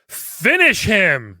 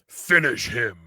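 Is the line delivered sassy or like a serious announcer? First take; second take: sassy; serious. First: It is said in a sassy, playful tone. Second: It is said like a serious fight announcer.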